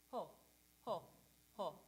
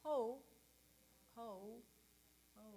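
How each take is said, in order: First: Short bouncy ho, lips rounded; change only the lips from ah to o; staccato ho. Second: Slack, uncertain ho; wrong ho. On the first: Coach showing choir the ho variant. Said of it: "Now let's try ho". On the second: Coach showing the wrong ho to avoid. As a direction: ho like you forgot what to do. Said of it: "And it's not". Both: Shown as a demonstration.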